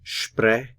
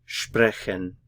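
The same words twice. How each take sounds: First: "sprechen" broken into two syllables, spre, chen; "sprechen" taken apart syllable by syllable; split into syllables. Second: Said in the usual way. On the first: Shown as a demonstration. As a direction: say "sprechen" slowly with a long gap between its two syllables. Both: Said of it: "is divided into two syllables".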